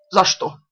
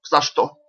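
First: Put-on higher, like a hurt child; plaintive babble. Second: Babbling. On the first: Lavrov collapsing, pleading like a wronged child. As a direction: whimper it like an offended child. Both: A narrator's reading. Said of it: "залепетал, как обиженный ребёнок".

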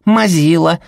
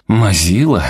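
First: Put-on high, loud kids' jeer; mock grandma like giggling children; little boys chanting a tease; children taunting. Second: Deeper male voice. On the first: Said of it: "Дети ... повторили". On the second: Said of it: "крикнул голос поглубже". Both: A narrator's reading.

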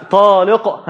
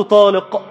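First: طالق with the final ق bounced, an echo after the stop; طالق بقلقلة القاف; qalqala on the qaf. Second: Said in the usual way. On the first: Shown as a demonstration. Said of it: "عشان هو بيقول لازم القلقلة". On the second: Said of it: "لازم القلقلة".

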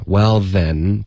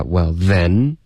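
First: Said in the usual way. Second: "well then" slowed, heavy stress on then; "well then" with a drawn-out, rising "then"; wrongly stressed THEN. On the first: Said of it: "这里不会有一个重音的". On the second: Shown as a demonstration. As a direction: lean hard on "then" in "well then". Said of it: "不要发well then".

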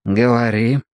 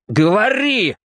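First: Said in the usual way. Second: Higher, snapped command; bark. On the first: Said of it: "велел Квакер". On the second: A narrator's reading. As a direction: bark it at him. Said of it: "рявкнул Квакер".

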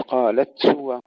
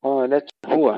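First: هو with the هاء swallowed into قالت; wrong form. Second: هو with a distinct هاء after قالت; clear ha. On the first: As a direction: run قالت هو together, هاء lost. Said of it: "لا ندغم الهاء". (إدغام الهاء الخاطئ) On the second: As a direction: voice the هاء of هو apart from the تاء. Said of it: "إظهار الهاء". (إظهار الهاء في قالت هو) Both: Shown as a demonstration.

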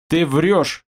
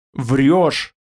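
First: Said in the usual way. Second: Убеждённо. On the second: A narrator's reading. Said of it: "ответил мрак убеждённо".

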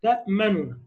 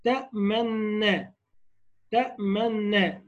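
First: تأمننا with each nun said apart; تأمننا pronounced with the two nuns kept apart; separated nun. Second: Slow drawn-out تأمنا with the two nuns merged; تأمنا recited slowly, the nuns blended into one. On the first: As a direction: split تأمننا clearly, ta-ma-nu-na. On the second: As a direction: stretch تأمنا slowly as one doubled nun. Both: Shown as a demonstration. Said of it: "لو قلناها بقى بالتبعيد".

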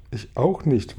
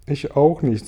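First: A touch of weeping, understated; mild tearfulness. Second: Said in the usual way. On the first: A narrator's reading. Glühwürmchen joining the non-swimmers, mildly tearful. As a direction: say it as if near tears. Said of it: "weinte Glühwürmchen". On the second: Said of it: "sagte Spinne".

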